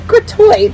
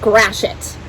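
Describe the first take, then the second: First: The word ends with a French-like 'tweet' sound. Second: The word ends with a 'sh-it' sound. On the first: The speaker calls it wrong. "So it's not gratuit" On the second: The speaker calls it right. "It's actually pronounced grashit"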